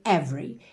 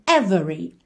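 First: The middle vowel is dropped, giving two syllables. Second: The middle vowel is clearly pronounced, giving three syllables. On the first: "esse E do meio é mudo, ou seja, do V a gente vai direto para o R" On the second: "esse E do meio não só aparece, como ganha até um certo destaque"

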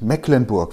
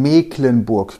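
First: The first vowel is short, like 'meckern'. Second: The first vowel is long, not like 'meckern'. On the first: The speaker calls it wrong. "und nicht Mecklenburg. Wir meckern doch nicht" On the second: The speaker calls it right. "wir werden Mecklenburg genannt"

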